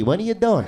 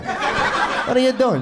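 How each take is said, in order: First: Said in the usual way. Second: Drawn out, higher, mock-baffled; slow incredulous repeat. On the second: Comic to audience member, slow mock-baffled repeat. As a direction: stretch it out in disbelief.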